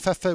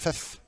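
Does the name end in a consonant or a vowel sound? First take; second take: vowel; consonant. First: The name ends with a vowel sound. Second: The name ends with a consonant sound. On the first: The speaker calls it right. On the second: The speaker calls it wrong.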